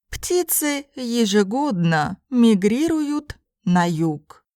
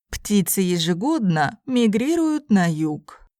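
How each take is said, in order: First: It is spoken slowly and carefully. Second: It is spoken at a normal conversational pace. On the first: "first in slow Russian" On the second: "then in normal speed Russian"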